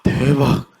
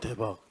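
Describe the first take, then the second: First: It is said with an excited gasp. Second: It is said flatly and coldly.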